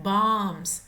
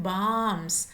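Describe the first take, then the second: Both takes have the same delivery.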